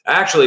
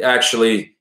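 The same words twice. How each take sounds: First: Put-on higher, louder retake in a Maine accent. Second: Put-on father's lines in a wobbly Maine accent; Maine accent slipping into Boston. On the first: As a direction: launch back in with a Maine accent. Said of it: "it's Maine". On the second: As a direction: try Maine but drift toward Boston. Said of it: "when I do this accent".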